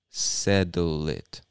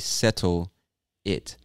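First: The two words are said fast and blended together. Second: The two words are said separately and carefully. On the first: "He's speaking much faster and he blends those two words together and just says settle it" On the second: "he doesn't say settle it"

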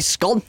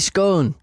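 First: The vowel is short, rhyming with gone. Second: The vowel is long, rhyming with own. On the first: This is how people say it in the south. The speaker calls it wrong. "We don't say scone, that's down south" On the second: This is how people say it in the north. The speaker calls it right. "We say scone, because it's own"

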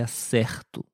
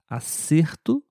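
First: The E vowel has the verb's pronunciation. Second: The E vowel has the noun's pronunciation. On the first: It means getting something right. "na segunda frase eu disse acerto" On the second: It means a correct answer. "na primeira frase eu disse acerto"

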